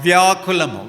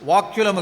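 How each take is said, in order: First: The y sound follows the first consonant v. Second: The y sound follows the consonant k. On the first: The speaker calls it right. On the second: The speaker calls it wrong. "వాక్యులము కాదు"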